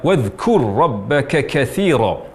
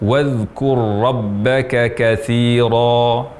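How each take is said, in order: First: The k sound carries a heavy rush of breath. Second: The k sound carries only a light breath. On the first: The speaker calls it wrong. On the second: The speaker calls it right. "Yang tepat"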